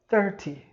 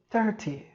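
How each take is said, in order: First: It is said in a British accent. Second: The same.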